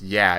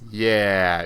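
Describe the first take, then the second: First: The word is said short and quick. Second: The word is stretched out long. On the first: "instead of just "yeah."" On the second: "it's a drawn out, uh, it's a drawn out lyric"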